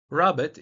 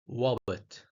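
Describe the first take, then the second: First: The word begins with an R sound. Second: The word begins with a W sound.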